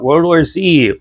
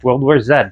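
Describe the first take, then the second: First: The title is said the standard, non-Canadian way. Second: The title is said the Canadian way.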